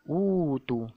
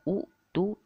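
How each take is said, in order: First: The first vowel is lengthened to two counts. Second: A glottal stop follows the short first vowel. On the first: This is how it is actually read. "dibaca dengan utu. Dua harkat" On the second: This is the original form with two hamzas.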